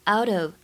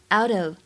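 Both takes have the same delivery.

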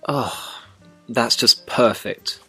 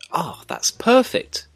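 First: It sounds sarcastic. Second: It sounds pleased.

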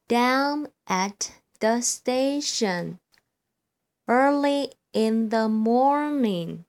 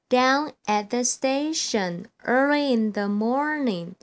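First: It is spoken at a slow, steady pace. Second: It is spoken at a faster pace. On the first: "我现在呢，先来朗读一遍。" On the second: "我要加快速度咯。"

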